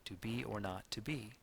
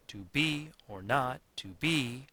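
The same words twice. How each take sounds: First: "to be or not to be" with light beats on be, not, be; subtle iambic stress. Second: "to BE or NOT to BE", slow, beats loud and high; overdone iambic stress. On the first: Teacher showing how the actor would speak, subtle stress on be, not, be. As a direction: gently lean on "be" and "not", no pounding. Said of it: "would be subtle but present". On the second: Teacher showing how an actor would not speak it, hammering BE, NOT, BE. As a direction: pound "be", "not" and "be" heavily. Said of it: "The a-, actor would not speak it". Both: Shown as a demonstration.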